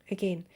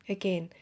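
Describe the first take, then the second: Both takes have the same delivery.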